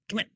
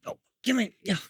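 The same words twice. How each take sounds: First: Said in the usual way. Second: Very high coaxing call. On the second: Real, not acted. Trainer coaxing the dog closer in high baby talk.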